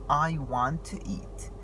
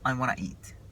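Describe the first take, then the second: First: Want to is said as two full words. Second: Want to is reduced and blended into wanna. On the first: "الجملة I want to eat" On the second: "أمال بيقولوها إزاي؟"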